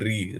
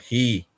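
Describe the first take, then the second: First: The word begins with a rolled R sound. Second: The word begins with an H-like breathy sound. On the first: The speaker calls it wrong. "some people don't know how to pronounce this word. They'll be saying re" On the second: The speaker calls it right. "It's not re. He"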